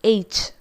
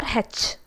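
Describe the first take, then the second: First: H said "aitch"; H, properly modelled; correct letter H. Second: H said "hetch"; H mispronounced as "hetch"; wrong letter H. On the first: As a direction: say H as "aitch", starting on the vowel. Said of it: "This is H". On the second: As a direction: say H as "hetch", with a breath of H first. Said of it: "but we pronounce it as". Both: Shown as a demonstration.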